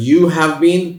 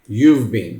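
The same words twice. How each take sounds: First: You have been, stretched slowly, louder; slow full form. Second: You've been, said fast as one word; quick contraction. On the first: (धीरे पूरा रूप you have been) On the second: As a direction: run you've been together. (जल्दी छोटा रूप you've been) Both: Shown as a demonstration.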